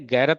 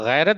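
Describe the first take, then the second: First: It starts with a plain hard g sound. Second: It starts with a throaty, scraping gh sound. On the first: The speaker calls it wrong. "गैरत नहीं बोलेंगे" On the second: The speaker calls it right. "तो गैरत बोलेंगे"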